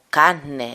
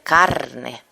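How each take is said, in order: First: The r sound before the n is dropped. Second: The r sound before the n is pronounced. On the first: "esta desaparición de la R" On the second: "en lugar de"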